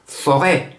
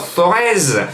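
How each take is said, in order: First: The word ends on a vowel, no z. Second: The word ends with an audible z sound. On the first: The speaker calls it right. "chez nous, les Stéphanois, on dit forêt" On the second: The speaker calls it wrong. "on dit pas Forez"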